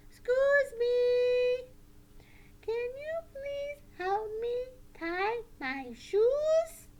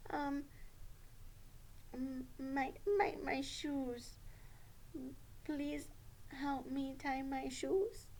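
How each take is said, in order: First: Slow, high, clear puppet voice; deliberate high-pitched polite puppet request; strong, respectful puppet. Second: Soft, hesitant puppet request; quiet, stumbling puppet pupil; careful puppet Sally. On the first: Shown as a demonstration. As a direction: ask politely and firmly as a puppet pupil. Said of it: "show you how to ask in a strong, respectful voice". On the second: Pretend. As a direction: ask haltingly, feeling for the words. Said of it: "you need to have a strong, respectful voice".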